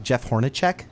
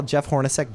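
First: "Hornacek" ending in a "check" sound; old mispronunciation. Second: Said in the usual way. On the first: Shown as a demonstration. Recalling an old name to a friend, "Hornacek" said Horn-a-check. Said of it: "used to call Jeff Hornacek". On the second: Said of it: "when they used to call".

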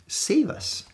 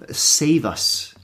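First: Unvoiced pleading "Save us."; whispered plea. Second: Said in the usual way. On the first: Shown as a demonstration. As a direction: whisper "Save us." high and soft.

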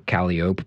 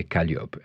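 First: "calliope" as CAL-ee-ope; local calliope. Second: "calliope" as kal-YOP, French style. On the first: Explaining a street name's origin, local pronunciation. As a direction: say "calliope" in three syllables, ending ope. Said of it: "the same for calliope". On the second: Showing the source of local speech, French pronunciation. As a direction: say "calliope" in French, stress at the end. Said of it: "in French you say calliope". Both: Shown as a demonstration.

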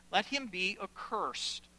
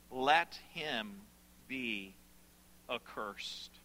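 First: Slow declaration in one phrase; solemn pronouncement. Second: "let him... be... accursed", each piece low and separate; grave, spaced-out emphasis. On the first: Preacher reading Paul's curse, solemn and connected. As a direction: pronounce it firmly without breaking it up. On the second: Preacher repeating Paul's curse, "let him be accursed" grave and halting. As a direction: sink lower and softer through "accursed", pausing before it. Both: Acted.

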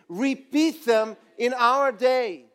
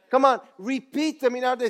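First: Slow, drawn out for the crowd to join; slow unison line; slow call and response. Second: Quick, rousing call to the crowd; quick rallying call; urging. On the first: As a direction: lead the crowd word by word. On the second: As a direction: fire them up fast. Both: Shown as a demonstration. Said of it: "Say it with me".

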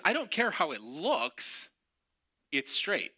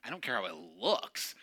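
First: Stubborn dismissal. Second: Mocking echo. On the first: Retold or imitated. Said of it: "He goes".

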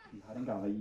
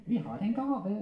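First: Said in the usual way. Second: High ventriloquist puppet voice; puppet character. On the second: Acted. Puppet announcing a gift to handler, high comic voice.

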